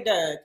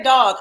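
First: "Doug" with a short uh, meaning dog; Baltimore Doug. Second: "dog" loud, with an open aw vowel; her own dog. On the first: Telling host what she avoids, Baltimore Doug. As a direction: show "Doug" as the rejected local vowel. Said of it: "I don't say Doug". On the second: Correcting the host's idea of her, emphatic open-vowel dog. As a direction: insist on "dog" with aw, not uh. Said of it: "I say dog". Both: Shown as a demonstration.

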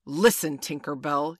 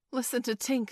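First: Loud, commanding reproach; stern cry. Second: Lightly voiced boy, pitched higher; higher, slightly louder call for attention; Curly. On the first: Peter confronts Tinker Bell over her crime, in a loud stern cry. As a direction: call out sternly, much louder. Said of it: "he cried". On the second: Curly alerts the others to Tink's crying, lightly voiced and higher. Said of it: "said Curly". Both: A narrator's reading.

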